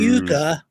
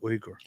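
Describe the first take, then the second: First: The name is said like Yuga. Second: The name is said like Uyghur. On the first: The speaker calls it wrong. "some people mistakenly say Yuga" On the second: The speaker calls it right. "It's actually Uyghur"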